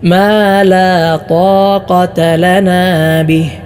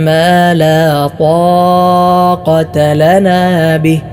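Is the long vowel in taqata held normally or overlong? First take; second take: normal; overlong. First: The long vowel in taqata is held one count. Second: The long vowel in taqata is stretched overlong. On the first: The speaker calls it right. "ഒരു അലിഫിൻ്റെ ഖദർ മാത്രമേ നീട്ടാൻ പാടുള്ളൂ" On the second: The speaker calls it wrong. "എന്തിനാണ് ഇങ്ങനെ കൂടുതൽ നീട്ടുന്നത്?"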